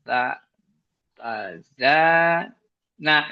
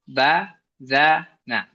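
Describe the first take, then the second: First: The first syllable is repeated with a hesitant pause. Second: Each syllable is said separately with even breaks. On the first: The reader is stuck thinking about the next letter. The speaker calls it wrong. "daripada bacanya ba, ba, za, nah. Dia mikir misalnya" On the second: The reader takes it one syllable at a time. The speaker calls it right. "itu dibetulkan dengan diputus aja"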